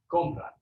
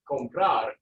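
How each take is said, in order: First: "compra" stressed on the first syllable, COM-pra; conjugated stress. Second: "comprar" stressed on the final syllable, -PRAR; infinitive stress. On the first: Teacher contrasting the conjugated "compra" for students, stress on COM. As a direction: lean on the start of "compra". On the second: Teacher modelling the infinitive "comprar" for the students, stress on the last syllable. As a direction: land on the end of "comprar". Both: Shown as a demonstration. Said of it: "now notice my pronunciation changed".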